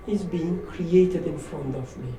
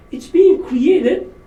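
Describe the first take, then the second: First: Said in the usual way. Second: Being stretched out slowly, high and loud; stress on being. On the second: Shown as a demonstration. Speaker restating his point about the crying baby, stressing being. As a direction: lean hard on being, drawn out.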